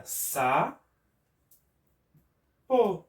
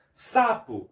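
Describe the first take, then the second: First: SA... PO, long pause between the syllables. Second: Said in the usual way. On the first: Shown as a demonstration. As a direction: split "Sa-, po" into two separate beats. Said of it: "se você for separar sapo". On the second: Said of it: "Se você for separar sapo".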